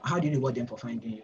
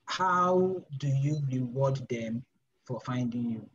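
First: Fast, brisk rephrasing; quick repeat. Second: Slow, stretched-out question; slow, deliberate question. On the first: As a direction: rattle the question off quickly. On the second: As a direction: lay each word down slowly. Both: Shown as a demonstration. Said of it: "how do I explain this?".

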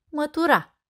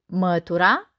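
First: "mătura" stressed on the final a, mă-tu-RA, higher with a closing fall; "mătura" with end stress, falling away; stress on last syllable. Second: "Mătura" stressed on the first syllable, MĂ-tu-ra, ending on a rise; "Mătura" with front stress, left rising. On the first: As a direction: say "mătura" as mătu-RA, like the verb for sweeping. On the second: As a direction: say "Mătura" as MĂ-tura, like the noun for broom. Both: Shown as a demonstration. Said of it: "următoarele omografe".

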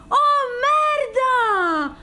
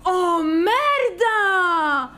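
First: Higher, loud, stretched wail; high stretched cry of disbelief; shocked cry. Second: Very slow, louder, drawn-out wail; drawn-out cry of amazement; shocked cry. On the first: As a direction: push it higher the second time. Repeats the cry. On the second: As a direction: let it out long and stunned. Shocked by the pull. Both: Real, not acted.

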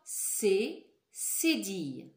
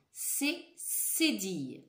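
First: Slow, louder C cédille; slow, louder repeat. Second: Slow, clear C cédille; slow clear model. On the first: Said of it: "Encore une fois". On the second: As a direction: say C cédille slowly for them to repeat. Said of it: "Répétez après moi". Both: Shown as a demonstration.

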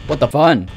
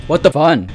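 No difference in how they are said.

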